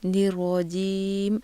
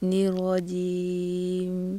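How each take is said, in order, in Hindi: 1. अंतिम 'm' साफ़ सुनाई देता है। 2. अंतिम 'm' हल्का और अस्पष्ट है।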